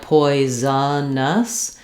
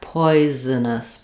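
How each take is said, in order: First: The word is said slowly. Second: The word is said very quickly. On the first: The speaker calls it wrong. "you really don't want to be slow like" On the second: The speaker calls it right. "This is very fast"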